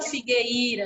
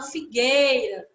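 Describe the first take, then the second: First: The I vowel sounds stronger than the E. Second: The E vowel sounds stronger than the I. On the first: The speaker calls it wrong. "A gente não fala figueira" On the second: The speaker calls it right. "A gente fala figueira. O I acaba sendo falado mais rápido"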